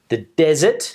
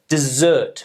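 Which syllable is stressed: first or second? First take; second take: first; second. First: The stress is on the first syllable. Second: The stress is on the second syllable. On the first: It means barren land where nothing grows. "the barren land where nothing grows" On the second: It means to abandon. "meaning to abandon"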